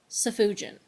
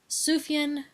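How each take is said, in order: First: The middle has an extra 'oo' and 'j'. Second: The middle consonant is a 'y' sound. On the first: The speaker calls it wrong. "I'd been butchering the poor guy's name" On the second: The speaker calls it right. "with the J pronounced as a Y"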